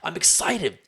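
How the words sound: It is said with real enthusiasm.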